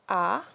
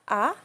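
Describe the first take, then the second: First: The pitch falls from high to low. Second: The pitch rises from middle to high. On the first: "the fourth tone, which is the falling tone" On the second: "We use the rising tone"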